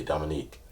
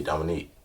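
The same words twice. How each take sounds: First: Deadpan, almost toneless self-introduction; low monotone. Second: Low monotone. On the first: Telling his name to the model in a low monotone. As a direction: say your name low and monotone, barely any voice. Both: Retold or imitated. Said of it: "very low, very monotone type voice".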